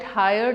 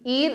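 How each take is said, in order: First: The word starts with a clear h sound. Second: The word starts with a vowel, no h sound. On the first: "Some people call it higher till now" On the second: "Ear is new pronunciation"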